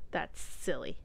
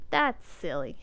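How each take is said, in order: First: Unvoiced, soft "That's silly."; whispered. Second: Said in the usual way. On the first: Shown as a demonstration.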